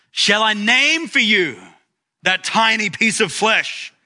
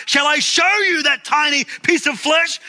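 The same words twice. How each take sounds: First: Mild mock yell, pitched high; retold pulpit yell. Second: Imitated shout, pitched very high; Zacharias Werner shouting. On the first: Preacher retelling a priest's challenge to his congregation, mock yell. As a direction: yell it lightly, voice lifted well up. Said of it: "Werner leaned over the pulpit and yelled". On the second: Preacher acting a priest leaning from the pulpit, rising shout. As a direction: raise the mock yell to a much higher peak. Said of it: "his voice rose to a hoarse shout".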